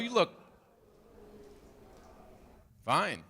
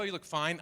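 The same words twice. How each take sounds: First: There is a long pause before the last word. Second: It is said straight through without a pause. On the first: The dress looks really attractive. The speaker calls it right. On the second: The dress looks merely acceptable. The speaker calls it wrong.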